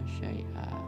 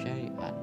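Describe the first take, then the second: First: The word ends with an open vowel. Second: The word ends with an n sound. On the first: The reader stops on this word. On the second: The reading continues past this word.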